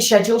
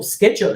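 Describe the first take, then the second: First: It is said with a British pronunciation. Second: It is said with an American pronunciation.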